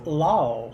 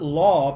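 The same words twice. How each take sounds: First: The vowel is stretched with a glide. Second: The vowel is short and plain.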